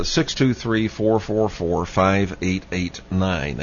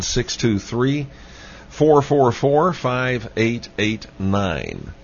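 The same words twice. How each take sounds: First: Said in the usual way. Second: Measured, emphatic phone-number read; slow, deliberate repeat. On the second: Real, not acted. Host repeats the phone number for listeners, slowly and deliberately. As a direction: spell out the digits slowly, drawing out the last ones.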